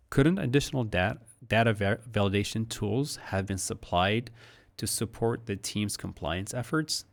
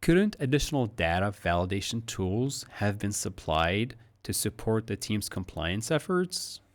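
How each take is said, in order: First: Stumbling, restarting take of the question; fumbled take. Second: Clean take with a rise on "efforts"; smooth up intonation. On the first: Teacher stumbles through a flawed take of the question. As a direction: trip over the words and restart. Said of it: "That didn't come out so well". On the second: Teacher gives the clean final take with rising tune. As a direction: run it smoothly and rise at the end. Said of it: "Up intonation". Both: Shown as a demonstration.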